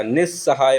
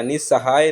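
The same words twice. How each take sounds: First: निस्सहाय as "nis-sahaay"; correct double s. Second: निस्सहाय misspoken as "ni-sahaay"; only one s in निस्सहाय; wrong single s. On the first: Teacher correcting it, निस्सहाय with doubled "s". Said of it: "आधा स पूरा स आता है". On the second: Teacher showing second error, निस्सहाय with single "s". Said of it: "निस्सहाय नहीं होता". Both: Shown as a demonstration.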